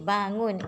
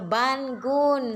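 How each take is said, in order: First: The ng is said as one nasal sound. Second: The n and g are said as separate sounds. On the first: The speaker calls it right. "jadi bangun" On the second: The speaker calls it wrong. "Kalau kita baca bangun salah"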